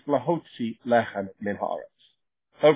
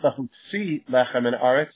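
First: The stress is on the middle syllable of lahotzi. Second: The stress is on the last syllable of lahotzi. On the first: The speaker calls it right. "It pushes back the accent" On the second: The speaker calls it wrong. "It's not"

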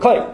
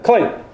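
First: The word is said very quickly. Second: The word is said at a normal pace.

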